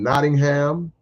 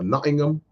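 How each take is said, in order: First: It is said with an American pronunciation. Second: It is said with a British pronunciation.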